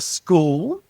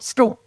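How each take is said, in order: First: The vowel is drawn out with a clear final L. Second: The vowel is short with the L barely heard. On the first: This is how other parts of Australia say it. "we don't say school or school like you do in other parts of Australia" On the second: This is how South Australians say it. "quick and short"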